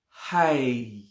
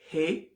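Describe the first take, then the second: First: The vowel sounds like a clear 'eye'. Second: The vowel sounds like a clear 'ay'. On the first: "and it's not hi" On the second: "It's not hey"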